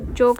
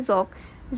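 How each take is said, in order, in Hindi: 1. इसकी शुरुआत j की आवाज़ और सादे k से होती है। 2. इसकी शुरुआत z की आवाज़ और गहरे q से होती है। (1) "याद करने के लिए तो आपको जोक लिख रखा है" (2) "सही तलफ़ुज़ होगा ज़ौक़"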